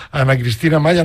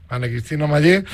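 First: Maya with a plain final a, the wrong version; surname said as Maya, the mistaken form; mispronounced surname. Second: Maye with a clear final e, the right version; surname corrected to Maye, ending in e. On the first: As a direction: Maya said ending in a, before the self-correction. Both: Shown as a demonstration. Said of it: "no, Maye".

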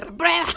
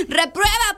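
First: Laughing "reprueba". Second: "Reprueba" said high and louder through laughter; laughing "reprueba". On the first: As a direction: echo "reprueba" still laughing. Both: Real, not acted. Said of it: "pues, le dije".

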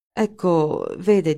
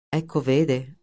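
First: "Ecco", a beat, then "vede" a little firmer, left unfinished; broken off. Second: Understated mocking echo; sarcastic. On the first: Wegener starts answering Linder, "Ecco, vede" breaking off. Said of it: "e si interruppe". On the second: Linder echoes Wegener's unfinished answer, sarcastic. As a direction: throw the words back at him sarcastically. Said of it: "sbottò Linder sarcastico". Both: A narrator's reading.

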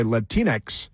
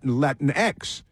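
First: Put-on Latinx said as la-TEEN-ex; as they say it. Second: Latinx said as LATIN-ex; unsure pronunciation. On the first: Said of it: "or as they say". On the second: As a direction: try Latinx as Latin plus ex. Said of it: "whatever it is". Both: Shown as a demonstration.

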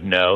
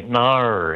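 First: Said in the usual way. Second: "nar" drawn out slowly with an Aussie vowel; Australian "nar" for no. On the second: Shown as a demonstration. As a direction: stretch "nar" long, Australian style. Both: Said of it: "how you say, instead of no, you say".

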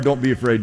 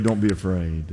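First: Said in the usual way. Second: Tender hushed repeat to end the encouragement; hushed reassurance. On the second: Pretend. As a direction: drop much lower and softer, almost a hush. Daniel's repeated comfort, fading down.

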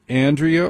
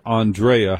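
First: Said in the usual way. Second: Andrea as "ahn-DRAY-uh"; pretentious pronunciation. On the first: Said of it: "is it Andrea or Andrea". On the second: Shown as a demonstration. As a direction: open "ah" and stressed "DRAY" in Andrea. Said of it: "How pretentious are you?".

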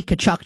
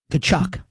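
First: Said in the usual way. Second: TKACHUK said slowly and deliberately, set apart by pauses; slow and careful. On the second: Real, not acted. Host avoiding getting fired over a name, TKACHUK slow and careful. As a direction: say TKACHUK with great care, each syllable distinct. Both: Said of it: "I wanna say this really slowly".

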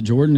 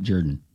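First: "Jordan" with an OR vowel, JOR-dun; standard pronunciation. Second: "Jordan" as the Alabama variant, JUR-dun; regional pronunciation. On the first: Co-host asking how the judge says his name, standard pronunciation. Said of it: "Does he pronounce it Jordan?". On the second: Co-host offering the other way to say the judge's name, Alabama pronunciation. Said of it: "Jordan is only in the state of Alabama". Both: Shown as a demonstration.

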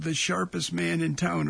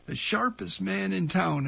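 First: Said in the usual way. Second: Lightly imitated radio announcer, lifted on "sharpest"; a hint of an emcee's introduction. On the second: Radio host recalls Cadillac Baby introducing a blues musician, mild announcer voice. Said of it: "in his best announcer voice".

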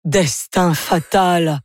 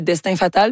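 First: "Destin fatal" very slow and drawn out; "Destin fatal" with slow, mock-tragic weight; dramatic pronunciation. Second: Said in the usual way. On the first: Shown as a demonstration. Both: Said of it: "mais ça se prononce".

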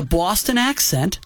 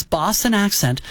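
First: Botched Boston accent that comes out New York; New York-tinged accent. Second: A second try at a Boston accent. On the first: Host attempting the singer's Boston speech, slipping into New York accent. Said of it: "that was more New York". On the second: Host describing the singer's voice, lightly putting on her Boston accent. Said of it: "she has this Boston accent". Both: Shown as a demonstration.

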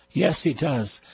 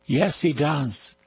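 No difference in how they are said.

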